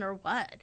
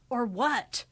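First: Said in the usual way. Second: "Or what?" with "what" punched louder and rising; stress on what. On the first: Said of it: "Like that". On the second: Shown as a demonstration. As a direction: hit "what" hard, demanding. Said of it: "certain words that are emphasized".

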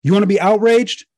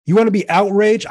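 First: Louder, higher, pushing the challenge harder; outraged call-out. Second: Loud rising challenge to the crowd; outraged call-out. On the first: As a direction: hammer the question home to the crowd. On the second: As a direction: fire them up, higher and louder. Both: Real, not acted. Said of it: "I'm outraged".

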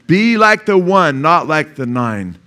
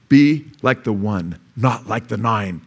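First: Higher and louder, slow, stress on "like" and "not"; emphatic repeat. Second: Slow, measured, stress on "be" and "not"; slow challenge. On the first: Preacher repeating the challenge to the congregation, loud and slow. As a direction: call it out again, much higher. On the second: Preacher challenging the congregation, slow and measured. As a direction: lay "be like the one" down slowly. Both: Shown as a demonstration. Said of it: "I'm challenging you".

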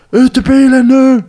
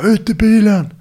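First: Much higher, much louder, slow furious bellow; retold cop screaming, each word hammered slowly; imitating an angry cop yelling. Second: Higher, louder barked order; retold police command, shouted up high; imitating a cop's shout. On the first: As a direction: play the cop losing patience, full yell. Cop repeats order, angrier. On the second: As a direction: mimic the cop yelling at him. Plainclothes cop orders him out.

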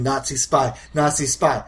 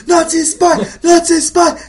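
First: Said in the usual way. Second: High, loud mob chant; mock screamed accusation; screaming villagers. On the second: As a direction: shriek it over and over, hammed up.

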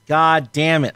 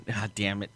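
First: Said in the usual way. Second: A quiet, dropped "God damn it"; muttered under breath. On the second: Shown as a demonstration. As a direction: say "God damn it" softly to yourself.

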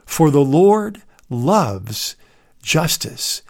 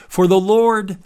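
First: "For the Lord loves justice" slowed and drawn out, leaning on "Lord"; a deliberate, unhurried second reading of "For the Lord loves justice"; slow emphatic repeat. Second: "Lord" pitched higher and leaned on; "For the Lord" with "Lord" hit high and firm; all-caps LORD. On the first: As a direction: repeat it slowly, savouring "Lord". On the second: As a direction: read "Lord" as if it were printed in capitals. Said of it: "that's in all caps". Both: Shown as a demonstration.

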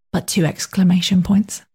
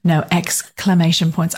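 First: Put-on British accent, whispered. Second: "exclamation" said slowly and pointedly to correct the mishearing; stressed correction. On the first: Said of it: "I'd like to read it in a British dialect". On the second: Real, not acted. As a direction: lean on "exclamation", slowly and clearly. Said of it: "I was very clear".

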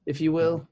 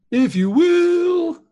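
First: Said in the usual way. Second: High, loud and very slow; dramatic drawn-out. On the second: Shown as a demonstration. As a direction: stretch it out grandly, much higher.

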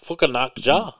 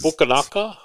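First: Fukunaga as a question, ending in "jah"; alternative pronunciation. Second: Fukunaga as a raised question, ending in "guh"; tentative pronunciation. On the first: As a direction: try Fukunaga unsurely, FOO-kuh-NAHK-jah. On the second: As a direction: try Fukunaga unsurely, FOO-kuh-NAH-guh. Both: Shown as a demonstration. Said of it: "however you say it".

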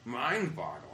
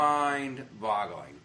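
First: Said in the usual way. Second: "Mind-boggling" stretched to half speed; slow emphasis. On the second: Real, not acted. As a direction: draw out both parts of "Mind-boggling". Second, drawn-out emphatic take.

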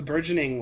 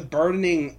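First: Fix the slip with burgeoning; the corrected burgeoning; corrected word. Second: Burdening said instead of burgeoning, a misspoken word; slip of the tongue. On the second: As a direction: stumble into burdening by mistake. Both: Real, not acted. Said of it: "the burgeoning".

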